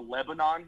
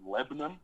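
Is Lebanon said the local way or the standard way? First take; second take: standard; local. First: The word is said the usual, standard way. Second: The word is said the altered local way. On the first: This is the name as used elsewhere. "there's a Lebanon here" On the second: This is how the town's people say it. "except you pronounce it Lebanon"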